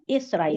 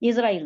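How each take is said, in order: First: The middle consonant is an s sound. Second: The middle consonant is a z sound. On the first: The speaker calls it right. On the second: The speaker calls it wrong.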